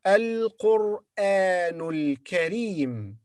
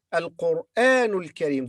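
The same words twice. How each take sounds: First: "Al-Qur'anul Karim" drawn out slowly, words run together; teacher's slow model of the linked phrase. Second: Said in the usual way. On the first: Shown as a demonstration. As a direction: join "Al-Qur'anul Karim" in one slow stretch. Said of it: "when we connect the words". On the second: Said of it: "normal repeat".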